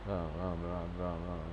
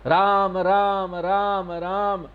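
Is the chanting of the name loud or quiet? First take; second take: quiet; loud. First: It is said softly, only to oneself. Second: It is said loudly for others to hear.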